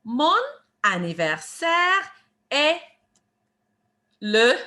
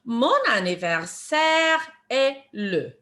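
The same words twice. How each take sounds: First: French phrase split by clear pauses; deliberate, spaced-out teacher model; word by word. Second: Slow French phrase, words kept joined; measured teacher demonstration in one run; slow phrase model. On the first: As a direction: give each word separately for learners to copy. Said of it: "One more time". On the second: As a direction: model the whole phrase slowly and clearly. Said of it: "the way we answer that". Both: Shown as a demonstration.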